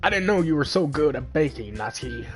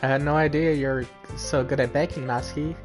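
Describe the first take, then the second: First: It is said in a funny put-on voice. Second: It is said in his normal voice.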